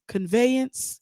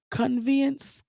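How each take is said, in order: First: Conveyance said as "con-vay-ence"; corrected reading. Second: Conveyance said as "con-vee-ence"; wrong reading. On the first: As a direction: conveyance fixed with a clear ay. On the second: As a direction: conveyance misread with a long ee. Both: Shown as a demonstration. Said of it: "I know how to read".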